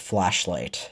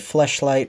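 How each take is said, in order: First: The first vowel sounds like the a in cat. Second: The first vowel sounds like the e in bed. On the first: This is the usual way others say it. "versus flashlight" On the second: This is how the speaker's own accent says it. "I also say fleshlight"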